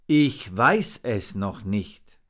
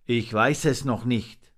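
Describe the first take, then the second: First: Drawn-out, deliberate words, firmly voiced; slow, weighty answer. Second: Said in the usual way. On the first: A narrator's reading. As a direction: answer slowly, word by word. Raven repeats answer more slowly.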